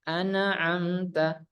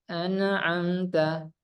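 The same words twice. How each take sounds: No difference in how they are said.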